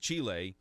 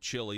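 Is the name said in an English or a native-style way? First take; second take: native-style; English. First: The name is said with a native-style pronunciation. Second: The name is said with a plain English pronunciation. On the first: The speaker calls it right. "Make sure you call it" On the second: The speaker calls it wrong. "don't call the country of Chile"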